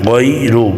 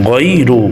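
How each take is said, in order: Both takes have the same delivery.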